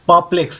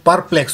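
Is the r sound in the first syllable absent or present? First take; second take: absent; present. First: No r sound is heard in the first syllable. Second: An r sound is heard in the first syllable. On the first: The speaker calls it right. "Real pronunciation इसका परप्लेक्स है. यहाँ पे र sound नहीं आ रहा है" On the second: The speaker calls it wrong. "अगर इसको मैं प्रोनाउंस करूं तो परप्लेक्स होगा"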